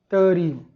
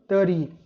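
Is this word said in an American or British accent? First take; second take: American; American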